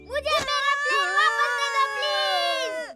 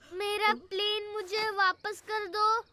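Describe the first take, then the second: First: It is said loudly, almost shouted. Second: It is said quietly and timidly.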